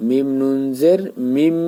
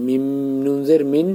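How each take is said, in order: First: মিম নুন জের মিম with the nun merged so it ends on মিম; correct spelling-out. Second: মিম নুন জের মিন said the way it is written, ending on মিন; wrong spelling-out. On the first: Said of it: "বলতে হবে". (নুন মিলিয়ে মিম নুন জের মিম উচ্চারণ) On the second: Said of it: "এখানে তো লেখা মিম নুন জের মিন না". (লেখা অনুযায়ী মিম নুন জের মিন বলা) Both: Shown as a demonstration.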